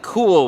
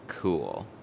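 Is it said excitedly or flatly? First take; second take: excitedly; flatly. First: It is said with excitement. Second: It is said flat, without emotion.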